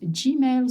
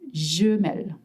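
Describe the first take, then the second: First: Gmail is pronounced with English sounds. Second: Gmail is pronounced with French sounds.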